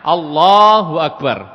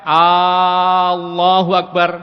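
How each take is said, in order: First: The 'la' sound is held long. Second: The opening 'A' sound is held long. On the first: God is the greatest. The speaker calls it right. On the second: It asks whether God is great. The speaker calls it wrong. "kalau A-nya panjang"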